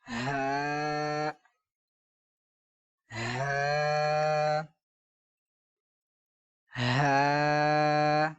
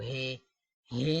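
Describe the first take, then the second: First: The letter name ends in an 'a' vowel. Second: The letter name ends in an 'e' vowel. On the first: The speaker calls it right. "बल्कि हा हा हा" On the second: The speaker calls it wrong. "हे हे नहीं पढ़ना"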